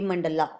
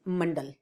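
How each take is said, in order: First: The word ends with an added a vowel. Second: The word ends on the consonant l. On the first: The speaker calls it wrong. "not a mandala" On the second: The speaker calls it right. "the correct pronunciation is mandal"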